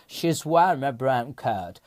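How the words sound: It is read smoothly with natural English pronunciation. The speaker calls it right. "Peki düzgün okuyoruz"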